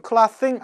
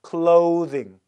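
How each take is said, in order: First: Clothing said wrongly as "klaw-sing"; mispronounced short vowel. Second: Clothing as "KLOH-thing", voiced th; clothing with a long oh, clearly modeled; corrected long o. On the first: Teacher showing the mistake, clothing as "klah-thing". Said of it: "clothing 아니에요". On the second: Teacher correcting the mistake, clothing with long o. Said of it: "이렇게 읽어요". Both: Shown as a demonstration.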